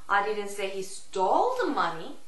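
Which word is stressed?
stole. The stress falls on the word stole. "Stole의 강세를 주느냐"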